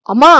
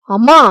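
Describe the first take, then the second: First: Said in the usual way. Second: Loud, sharp cry of mother; a son's outraged yell; explosive shout at his mother; angry shout. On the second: Acted. Son raises hand at mother.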